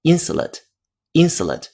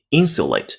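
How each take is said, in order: First: American "insulate", middle reduced to a short "suh"; American pronunciation. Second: British "insulate" with a clear "syu" in the middle and full "ate"; British pronunciation. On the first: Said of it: "但是如果美音的话". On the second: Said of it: "发的是英音". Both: Shown as a demonstration.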